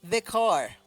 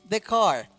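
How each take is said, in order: No difference in how they are said.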